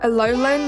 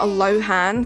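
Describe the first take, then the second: First: The middle consonant is an L sound. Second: The middle consonant is an H sound. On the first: The speaker calls it right. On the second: The speaker calls it wrong. "not Alohan. Thank you, I always say it wrong"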